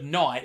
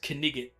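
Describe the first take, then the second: First: It is said as one syllable. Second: Every letter is sounded, giving two syllables. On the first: "He's saying knight" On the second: "he's pronouncing it wrong"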